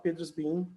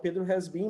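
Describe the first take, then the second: First: The word has is reduced to an s. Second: The word has is said in full. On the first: "informalmente, ele pode falar Pedro's been" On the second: "eles vão tentar falar Pedro has been"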